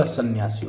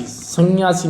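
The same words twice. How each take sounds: First: Said in the usual way. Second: संन्यासी with ng, "sangyasi"; mispronounced संन्यासी. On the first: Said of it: "सन्यासी होगा". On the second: Shown as a demonstration. Teacher showing the wrong form, संन्यासी as "sangyasi". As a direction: put an ng sound before the y. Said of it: "संन्यासी नहीं होगा".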